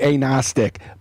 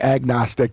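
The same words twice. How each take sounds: First: The g sound is left out. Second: The g sound is clearly pronounced. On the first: "you wouldn't say the G" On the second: "so that you know what I'm saying"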